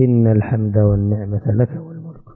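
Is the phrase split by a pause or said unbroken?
unbroken. The phrase is said without a break. The speaker calls it right. "قل"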